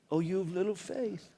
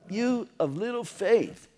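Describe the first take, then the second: First: It is said warmly, as loving encouragement. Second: It is said as a sharp, harsh rebuke.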